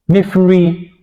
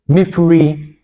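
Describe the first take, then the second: No difference in how they are said.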